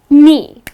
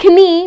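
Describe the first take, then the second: First: No K sound is pronounced at the start. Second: A K sound is pronounced at the start. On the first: The speaker calls it right. "but it's just knee. The letter K at the beginning of the word goes silent" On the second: The speaker calls it wrong. "it's not knee"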